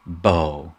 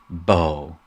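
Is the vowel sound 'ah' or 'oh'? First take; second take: oh; oh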